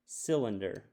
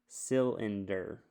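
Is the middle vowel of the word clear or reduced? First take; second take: reduced; clear. First: The middle vowel is reduced to a schwa. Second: The middle vowel is a clear short vowel. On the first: The speaker calls it right. "let's try it with a schwa. ... Sounds right to me" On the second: The speaker calls it wrong. "Sounds kind of funny when I say it that way"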